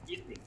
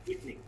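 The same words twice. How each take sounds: First: The word is said with two vowel sounds. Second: The same.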